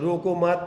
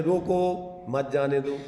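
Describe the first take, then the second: First: रोको मत run together as one firm phrase; pause after मत. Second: Slow रोको, a break, then मत जाने दो as one phrase; pause after रोको. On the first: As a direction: join मत to रोको, then stop. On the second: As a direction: put the comma straight after रोको. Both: Shown as a demonstration. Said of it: "इधर comma लगाओ, इधर से बोलो".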